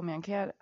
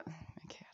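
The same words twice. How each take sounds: First: Said in the usual way. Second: Soft breathy whisper of Mankato. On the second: Real, not acted. Repeating a place name, then whispered.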